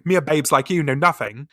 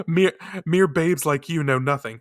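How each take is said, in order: First: Put-on broad Essex accent on babes. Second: Put-on Essex accent. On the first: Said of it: "I go straight to Essex". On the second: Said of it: "my own Essex accent".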